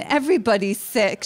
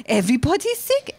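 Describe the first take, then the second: First: Said in the usual way. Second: Mocking accented echo with a sharp questioning rise; incredulous mother. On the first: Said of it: "I'm like". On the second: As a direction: parrot it back as a disbelieving mother. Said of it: "She's like".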